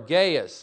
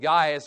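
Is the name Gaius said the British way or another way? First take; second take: other; British. First: The name is said in a non-British way. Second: The name is said the British way. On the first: "I'm used to saying Gaius" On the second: "which is the British pronunciation"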